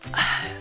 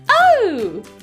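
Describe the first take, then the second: First: It is said in a soft whisper. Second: It is said in a funny, put-on voice. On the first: "And in a whisper voice" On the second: "And in a silly voice"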